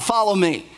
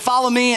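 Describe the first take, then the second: First: It is said in a pleading, emotional way. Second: It is said plainly, without emotion.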